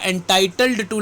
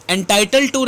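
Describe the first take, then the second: First: "entitled to" slowly, with the final d sounded; correct form with D. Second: "Entitled to" said as "entitle to", final d dropped; wrong form without D. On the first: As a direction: separate "entitled to", voicing the d before the t. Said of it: "लगना चाहिए". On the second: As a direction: run "Entitled to" together with no d before the t. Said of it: "नहीं लगेगा". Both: Shown as a demonstration.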